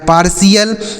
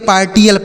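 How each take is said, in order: First: The middle consonant is an sh sound. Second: The middle consonant is a t sound. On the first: The speaker calls it right. "इसे आपको ऐसे पढ़ना जैसे हमने बताया" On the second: The speaker calls it wrong. "टी एल पढ़ेंगे... ऐसा नहीं पढ़ना है, गलत उच्चारण होता है"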